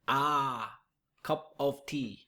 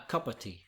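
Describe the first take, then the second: First: The first vowel is a full, effortful 'ah'. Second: The first vowel is a weak schwa. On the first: The speaker calls it wrong. "they make too much effort to pronounce it" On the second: The speaker calls it right. "instead of a cup of tea"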